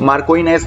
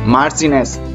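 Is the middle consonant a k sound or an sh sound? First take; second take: k sound; sh sound. First: The middle is said with a k sound. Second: The middle is said with an sh sound. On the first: The speaker calls it wrong. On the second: The speaker calls it right.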